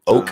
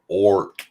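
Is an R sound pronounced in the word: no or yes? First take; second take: no; yes. First: The word is said with no R sound. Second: The word is said with a clear R sound. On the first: "without the uh, the R?" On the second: "I use the hard R"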